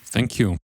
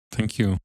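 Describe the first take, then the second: No difference in how they are said.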